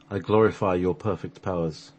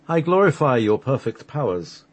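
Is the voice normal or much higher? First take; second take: normal; much higher. First: It is said in a normal voice. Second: It is said in a much higher voice.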